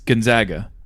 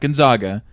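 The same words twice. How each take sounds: First: The middle syllable sounds like 'zag'. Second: The middle syllable sounds like 'zog'. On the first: The speaker calls it right. "They're the Zags" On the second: The speaker calls it wrong. "They're not the Zogs"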